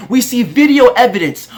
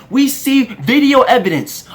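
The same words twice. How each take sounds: The two takes are said the same way.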